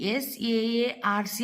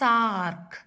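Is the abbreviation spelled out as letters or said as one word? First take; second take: letters; one word. First: Each letter is said separately. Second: It is said as one word. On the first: "అని పలకకుండా"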